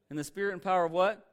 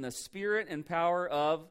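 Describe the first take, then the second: First: "what" lifted loud and rising, a call for the answer; prompting the congregation. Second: Said in the usual way. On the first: Shown as a demonstration. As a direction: throw "what" out to the crowd to fill in.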